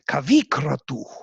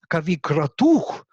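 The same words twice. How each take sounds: First: The accent falls on the first part, kavi. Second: The accent falls on the last part, kratuh.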